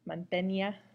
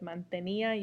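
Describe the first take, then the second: First: The final i and a blend into one syllable. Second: The final i and a are two separate syllables. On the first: The speaker calls it wrong. "It would blend. It would be a diphthong" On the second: The speaker calls it right. "having that accent makes it into two distinct syllables"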